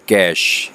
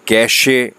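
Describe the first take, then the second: First: The word ends on the sh consonant. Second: The word ends with an extra vowel sound. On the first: The speaker calls it right. "उसको बोलने का जो style है वो है कैश" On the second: The speaker calls it wrong. "ई है तो कैशे पढ़ा जाए, लेकिन ई जो है वो साइलेंट है"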